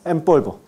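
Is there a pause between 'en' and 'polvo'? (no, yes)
no. The words run together; the nasal sounds like m. "Cuando no hay pausa"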